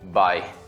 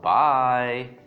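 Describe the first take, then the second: First: The word is said flatly, without feeling. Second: The word is said warmly, with feeling. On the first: The speaker is glad to get rid of the person. The speaker calls it wrong. "Try not to say it this way" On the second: The speaker shows real feeling toward the person. The speaker calls it right. "it gives more emotion into it"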